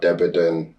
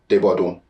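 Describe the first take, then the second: First: The name is said with an English-style pronunciation. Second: The name is said with a Nigerian Yoruba pronunciation. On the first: This is how outsiders in school said the name. "That's what the teachers would, would refer to me as" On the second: This is how the name is properly said at home. "the proper pronunciation is Debodun. That's the Nigerian pronunciation"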